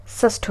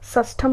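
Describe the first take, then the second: First: षष्ठ with no final m; correct form. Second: षष्ठम with final 'am'; wrong form. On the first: Teacher repeating the correction, short ending on षष्ठ. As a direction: end षष्ठ right on th. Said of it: "षष्ठ होता है". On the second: Teacher repeating the mistake, m ending on षष्ठम. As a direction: finish षष्ठम on an m. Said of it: "षष्ठम नहीं होता है". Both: Shown as a demonstration.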